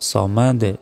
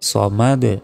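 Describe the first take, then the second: Both takes have the same delivery.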